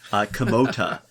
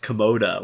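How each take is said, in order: First: The middle consonant is a crisp T sound. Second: The middle consonant sounds like a soft D. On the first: The speaker calls it right. "enunciate the T, uh, Komota, uh, properly" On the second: The speaker calls it wrong. "people end up thinking it's Komoda"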